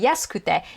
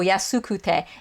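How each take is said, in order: First: The u vowels are dropped, almost silent. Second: The u vowels are clearly pronounced each time. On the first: This is how native speakers say it in conversation. The speaker calls it right. "They'd say yasukute" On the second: This is careful, enunciated speech. The speaker calls it wrong. "they don't go yasukute unless they're really enunciating"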